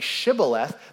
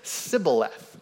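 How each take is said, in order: First: The word begins with a sh sound. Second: The word begins with an s sound. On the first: This is how the Gileadites said the word. The speaker calls it right. "Instead of saying Shibboleth" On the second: This is how the Ephraimites said the word. The speaker calls it wrong. "they said Sibboleth, right? There's a difference there. You can hear it"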